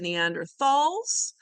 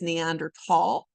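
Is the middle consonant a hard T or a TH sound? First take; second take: TH sound; hard T. First: The middle consonant is a soft TH sound. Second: The middle consonant is a hard T sound. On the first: "you may also hear them called the Neanderthals" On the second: "the correct way to pronounce it is Neanderthal"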